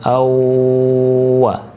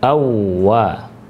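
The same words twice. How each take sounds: First: The doubled w is held and drawn out. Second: The doubled w is pressed quickly, not held. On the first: The speaker calls it wrong. "bukan awwa" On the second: The speaker calls it right. "tapi awwa"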